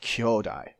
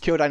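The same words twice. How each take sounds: First: The o vowel is long and held. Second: The o vowel is short, not held. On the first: It means brother. The speaker calls it wrong. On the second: It means giant. The speaker calls it right.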